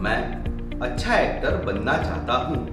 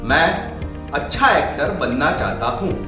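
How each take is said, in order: First: It is spoken at the lowest volume. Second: It is spoken at the highest volume. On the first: "कुछ इस प्रकार" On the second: "और volume बढ़ाकर"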